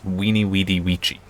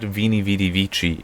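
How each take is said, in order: First: The first two words begin with a W sound. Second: The first two words begin with a V sound. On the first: The speaker calls it right. "It's Weenie Weedy Vici" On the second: The speaker calls it wrong. "That's not Vini Vidi Vici"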